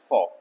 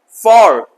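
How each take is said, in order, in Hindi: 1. यह शब्द हल्का है, इसका स्वर कमज़ोर (reduced) है। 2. यह शब्द ज़ोर के साथ, पूरे स्वर के साथ बोला गया है। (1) "the weakest form is for" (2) "strongest for"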